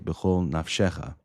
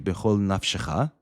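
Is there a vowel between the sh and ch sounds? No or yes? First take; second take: yes; no. First: A short vowel separates the sh and ch sounds. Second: The sh runs straight into the ch sound. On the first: The speaker calls it right. "instead, you should say" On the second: The speaker calls it wrong. "that would be wrong, right? That's making a pronounced shva into a silent shva"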